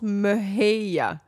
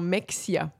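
First: The middle consonant is pronounced as h. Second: The middle consonant is pronounced as ks. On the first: The speaker calls it right. "Mais ça se prononce Mahia" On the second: The speaker calls it wrong. "Genre Mexia"

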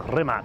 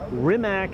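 First: The name is pronounced the European way. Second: The name is pronounced the English way. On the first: "that's more kind of European pronunciation of it" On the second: "It's Rimac, I would say, in English"

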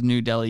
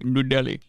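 First: The name is said in a plain accent. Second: The name is said in an Indian accent. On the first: "If someone says New Delhi" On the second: "people don't do the Indian accent for Indian towns"

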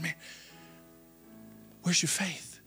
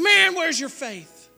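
First: It is said in a gentle, teaching tone. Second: It is said in a harsh, scolding tone.

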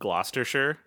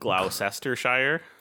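First: It is said short, like Gloster-shire. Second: It is said with every spelled syllable.

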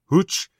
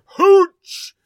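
First: The word is said quietly, like a question. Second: The word is yelled loudly with excitement. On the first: "Is that how you pronounce that?" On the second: "so you got to make sure you yell it"

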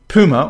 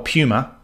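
First: The word is said in a non-Australian way. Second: The word is said in an Australian way.

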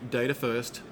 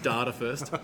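First: It is said in an American accent. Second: It is said in a non-American accent. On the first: "You'll notice I use an American accent with that" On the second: "not Data First"

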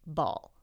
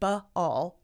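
First: The word is said smoothly as one blended syllable. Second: The first sound is split off with an extra vowel. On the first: The speaker calls it right. "It's ball" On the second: The speaker calls it wrong. "the word is not B-all"

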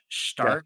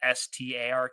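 First: The name begins with an 'sh' sound. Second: The name begins with a plain 's' sound. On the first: It is the German way of saying it. "They clearly pronunciate his name with like an SH" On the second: It matches how the name is spelled. "the way everything's spelt out, it's Stark"

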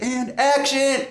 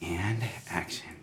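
First: It is said to set up a charging, energetic scene. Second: It is said to set up an angry, tense scene.

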